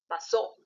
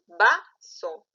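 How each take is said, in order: First: The stress is on the last syllable. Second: The stress is on the first syllable. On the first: The speaker calls it wrong. "no dices vaso" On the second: The speaker calls it right. "Porque tú dices vaso"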